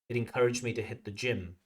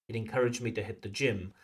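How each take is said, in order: The two takes are said the same way.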